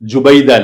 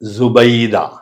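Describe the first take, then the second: First: The name begins with a j sound. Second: The name begins with a z sound. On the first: The speaker calls it wrong. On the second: The speaker calls it right.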